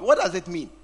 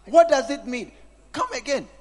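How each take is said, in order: First: Said in the usual way. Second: Louder and higher, pressing the question; loud demanding repeat. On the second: Real, not acted. Preacher pressing the congregation about phones, louder. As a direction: hammer the question at them. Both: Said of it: "repeated question, second louder".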